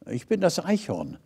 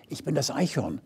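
First: Soft whisper. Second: Very soft, breathy-free hush; hushed whisper. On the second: Squirrel introduces itself from the trunk, softly whispered. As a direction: squirrel whispers its name to the star. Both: A narrator's reading. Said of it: "wisperte da eine weitere Stimme".

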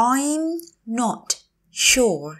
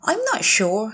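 First: I'm, not, sure, each said separately; slow teacher model of "I'm not sure"; word by word. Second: Said in the usual way. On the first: Shown as a demonstration. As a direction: say "I'm not sure" slowly, pausing between words. Teacher repeats phrase word by word.

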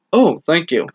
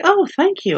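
First: Said in the usual way. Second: Much higher flustered woman's thank-you; Prudence, lifted and breathy-free high pitch, surprised at the compliment; reading Prudence's line to Bruce on a date, pitched up high; playing Prudence. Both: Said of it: "from my performance".

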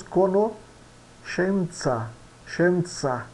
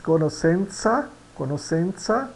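First: CONOSCENZA with SH and TS, "co-no-SHEN-tsa"; Italian pronunciation. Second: CONOSCENZA with S, "co-nos-SEN-sa"; read as spelt. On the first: Teacher models Italian, SC in conoscenza as SH. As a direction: pause before the SHEN of conoscenza. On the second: Teacher shows learners the written word, SC as S. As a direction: say SC in conoscenza as plain S, rising. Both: Shown as a demonstration. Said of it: "que nós pronunciamos".

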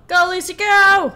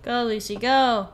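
First: High, very loud rooting yell; full-volume, high-pitched urging on; shouted cheer. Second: Lightly urging a runner on; mild cheer. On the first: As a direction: yell it like a fan at the finish line. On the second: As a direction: cheer with the last word punched louder. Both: Pretend. Cheering on a game character.

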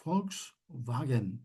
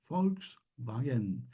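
First: Volkswagen drawn out slowly, V said as F; slow model word. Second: Volkswagen again drawn out slowly, V said as F; slow repeat. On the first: Teacher slowly models Volkswagen for class. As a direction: spell out Volkswagen slowly, F sound first. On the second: Teacher repeats Volkswagen slowly for students. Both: Shown as a demonstration. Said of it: "Bakın".

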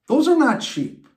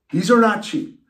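First: "are" hit high and loud; stress on are. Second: Quoting dad. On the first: Real, not acted. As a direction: lean hard on "are" in "Those are not cheap". Complaining about retainer costs. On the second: Retold or imitated. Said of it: "was told a few times by Papa Bear".

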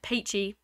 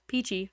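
First: PEACHY with an AY in the first syllable, like "paychee"; slipped accent. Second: Said in the usual way. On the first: Real, not acted. Streamer repeating their own accidental slip, Peachy said as "paychee". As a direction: say Peachy as "PAY-chee". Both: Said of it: "accent came in".

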